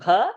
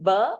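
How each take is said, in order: First: The consonant has a puff of breath after it. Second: The consonant is plain, with no breath after it. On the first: The speaker calls it right. "say bha ... Mahaprana" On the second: The speaker calls it wrong. "Instead of saying ba"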